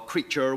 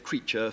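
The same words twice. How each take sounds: First: The final R sound is clearly pronounced. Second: The final R sound is dropped. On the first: This is the older way of speaking. "instead of saying ... or creature" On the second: This is the later English way. "we just say creature"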